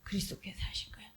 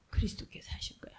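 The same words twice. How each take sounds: First: A hushed, quicker whisper. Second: A quick hushed whisper. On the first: Preacher gives the answer to congregation, quick whisper. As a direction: let the answer fall to a whisper. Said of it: "whispered answer". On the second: Preacher repeats the answer to listeners, hushed whisper. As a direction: whisper it like a secret truth. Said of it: "whispered answer repeated". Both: Shown as a demonstration.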